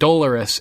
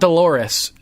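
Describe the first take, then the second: First: It does not sound like the name Dolores. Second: It sounds like the woman's name Dolores. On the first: The speaker calls it right. "but Dolorous Ed" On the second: The speaker calls it wrong. "so it's not Dolores, like the woman's name"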